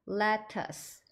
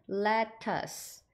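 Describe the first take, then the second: Both takes have the same delivery.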